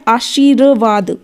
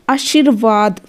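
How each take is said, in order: First: आशीर्वाद drawn out as aa-shee-ra-vaad; syllable-by-syllable demo. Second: Said in the usual way. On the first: Shown as a demonstration. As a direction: sound out आशीर्वाद slowly, र before वा. (आशीर्वाद को धीरे तोड़कर, आ-शी-र-वाद) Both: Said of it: "वा से पहले र आ गया".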